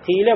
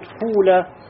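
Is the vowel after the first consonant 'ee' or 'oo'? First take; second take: ee; oo. First: The vowel after the first consonant is 'ee'. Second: The vowel after the first consonant is 'oo'. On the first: This is the more literary, common form. "«хифа», «киля», «сима» это является «афсах», то есть более литературным" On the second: This is a less common form used by some Arabs. "Вместо того, чтобы сказать «киля» будет «куля»"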